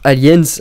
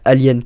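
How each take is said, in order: First: The final S is clearly pronounced. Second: The final S is not pronounced. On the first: It is the English way of saying the title. "En anglais on va dire Aliens" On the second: It is the French way of saying the title. "en français on va juste dire Alien"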